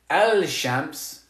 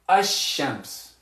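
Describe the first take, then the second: First: The L sound is clearly pronounced before sh. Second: The L merges into a doubled sh sound. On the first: The speaker calls it wrong. "We're not going to say al-shams" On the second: The speaker calls it right. "We're going to say ash-shams"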